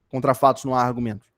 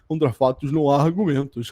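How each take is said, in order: First: It is said in a plain, neutral tone. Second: It is said in a smug, self-satisfied tone.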